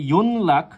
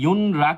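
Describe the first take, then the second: First: The middle is an N followed by L. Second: The middle is an N followed by R. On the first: "সেটা সম্পূর্ণরূপে ভুল" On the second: "সেটাও ভুল"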